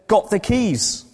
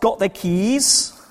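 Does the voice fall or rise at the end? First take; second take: fall; rise. First: The voice falls at the end, like a statement. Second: The voice rises at the end, like a question. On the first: It tells that the speaker has the keys. "you said" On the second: It asks whether the listener has the keys. "I asked"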